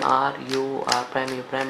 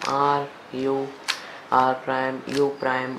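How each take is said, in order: First: The sequence is spoken quickly. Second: The sequence is spoken slowly. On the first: "शायद मैंने थोड़ा जल्दी जल्दी बोल दिया" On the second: "फिर से करके दिखाता हूँ धीरे से"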